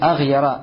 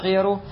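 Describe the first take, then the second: First: The word ends with an 'a' vowel. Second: The word ends with a 'u' vowel. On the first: The word is in the accusative case. "можно прочитать это слово с фатхой" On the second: The word is in the nominative case. "может прийти с рафом. То есть с даммой на конце"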